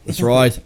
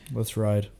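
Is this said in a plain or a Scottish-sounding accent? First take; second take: Scottish; plain. First: It is said in a Scottish-sounding accent. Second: It is said in the speaker's plain accent. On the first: "That was like Scottish" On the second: "You're supposed to say that in your British accent"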